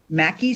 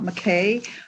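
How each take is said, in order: First: The name is said like 'Mackey'. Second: The name is said like 'McKay'. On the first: The speaker calls it right. "just so you know how it's pronounced" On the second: The speaker calls it wrong. "not McKay"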